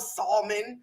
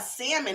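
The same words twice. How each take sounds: First: The word is said with the L pronounced. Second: The word is said with a silent L. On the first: This is how other people say it. The speaker calls it wrong. "We don't eat no salmon" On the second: This is how their own people say it. The speaker calls it right. "we have salmon over here"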